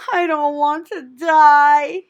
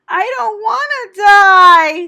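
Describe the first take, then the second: First: High, slow, tearful moan. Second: High, loud, slow crying scream. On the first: Wilbur bursting into tears over his fate, moaning. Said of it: "he moaned". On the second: Wilbur throwing himself to the ground, screaming. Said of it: "screamed Wilbur". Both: A narrator's reading.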